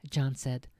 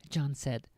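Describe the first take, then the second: No difference in how they are said.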